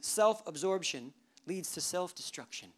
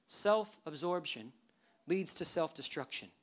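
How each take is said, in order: First: Said in the usual way. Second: "Self-absorption" said slowly, a pause, then "leads" pressed hard; slow, weighty repeat. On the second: Shown as a demonstration. Preacher repeats his key line to the church, slow and pointed. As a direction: let each word land, pausing after "Self-absorption".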